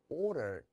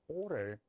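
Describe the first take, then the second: Both takes have the same delivery.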